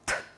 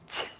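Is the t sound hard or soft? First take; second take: hard; soft. First: The t is plain, without a y-like glide. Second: The t is softened, with a y-like glide. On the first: "A hard sound" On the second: "A soft sound"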